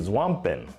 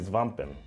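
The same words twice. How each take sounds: First: The word begins with a 'sw' sound. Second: The word begins with an 'sv' sound. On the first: "I hope I'm saying that right" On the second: "you take that W, you make the V sound"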